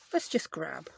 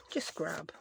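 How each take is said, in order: First: Said in the usual way. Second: "just grab" whispered to herself, no voice. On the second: Real, not acted. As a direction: breathe "just grab" under the breath while searching. Repeats the words in a whisper.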